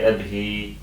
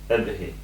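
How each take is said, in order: First: The final vowel is drawn out long. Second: The final vowel is kept short. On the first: The speaker calls it wrong. "I don't say abhi" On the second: The speaker calls it right. "then you do not elongate her"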